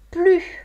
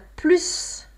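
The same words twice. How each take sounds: First: The final s is not sounded at all. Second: The final s is sounded as s. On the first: "On a plus devant un adjectif ou un adverbe qui commence par une consonne" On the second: "On a plus quand il y a un nom ou un verbe"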